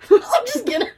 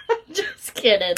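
First: High silly put-on voice; mock voice. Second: Said in the usual way. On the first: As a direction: say it in a goofy high voice.

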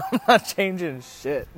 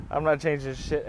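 First: Pitched up and loud, breaking into laughter; laughing refusal. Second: Said in the usual way. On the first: Retold or imitated. He refuses a second tux and haircut, laughing refusal. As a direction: crack up while retelling a stubborn refusal.

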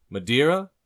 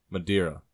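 First: Loud, high question that swoops upward; barkeep offering. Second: Said in the usual way. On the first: Acted. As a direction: offer it brightly as a rising question. Barkeep offering, then customer answers.

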